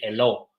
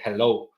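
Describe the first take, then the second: First: The first h sound is not breathy like a J. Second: The first h sound is breathy like a J. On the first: The speaker calls it wrong. "we don't say hello" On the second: The speaker calls it right. "we say hello because that H sounds like a like a J"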